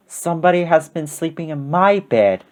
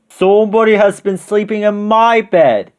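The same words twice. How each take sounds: First: Restrained Mama Bear voice; a modest bear voice, gently held back; middle-sized voice. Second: High-pitched, booming big bear; great big voice. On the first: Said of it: "in her middle-sized voice". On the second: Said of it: "in his great big voice". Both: A narrator's reading.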